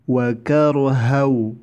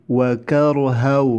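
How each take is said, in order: Both takes have the same delivery.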